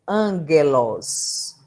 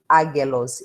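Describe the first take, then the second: First: The word is said with an n sound. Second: The word is said without an n sound. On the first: The speaker calls it right. "eu leio angelos" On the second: The speaker calls it wrong. "eu não leio agelos"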